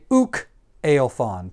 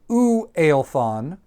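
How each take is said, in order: First: A k sound separates the two words. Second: The two words run together with no k. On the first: The speaker calls it right. "to differentiate that these are two different words" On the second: The speaker calls it wrong. "because that blends together"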